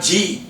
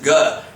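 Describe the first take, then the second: First: It sounds like the English letter name. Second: It sounds like a short Sanskrit syllable. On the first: The speaker calls it wrong. "It should not be in English way. It is not G" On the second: The speaker calls it right. "The pronunciation should be in Sanskrit way. it is Ga"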